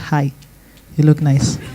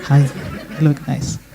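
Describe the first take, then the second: No difference in how they are said.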